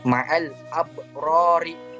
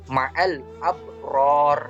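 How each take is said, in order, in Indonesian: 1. Kata terakhir berakhir dengan vokal pendek. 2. Kata terakhir berakhir dengan bunyi konsonan. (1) "Yang aslinya" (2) "akan sukun karena dia waqaf"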